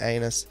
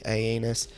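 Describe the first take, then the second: First: The word is said with two syllables. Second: The word is said with three syllables. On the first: The speaker calls it wrong. "I like to mispronounce their Latin name as" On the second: The speaker calls it right. "but I think it's actually"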